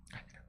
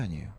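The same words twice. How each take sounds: First: 아니에요 said softly as a flat answer. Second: 아니에요 asked as a question; asking tone. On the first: Preacher answers his own question, soft firm statement. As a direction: answer 아니에요 quietly and firmly. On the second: Preacher asks the congregation, questioning tone. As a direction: pose 아니에요 as a doubtful question. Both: Shown as a demonstration.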